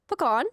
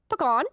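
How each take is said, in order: The two takes are said the same way.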